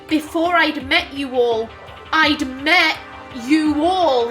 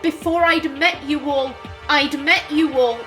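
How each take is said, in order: First: The second clause is intoned as a separate new claim. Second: The second clause sounds like a plain echoed repetition. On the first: They had already known each other before. The speaker calls it right. "it wasn't repetition. It was" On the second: The phrase is simply being repeated. The speaker calls it wrong. "He wasn't saying"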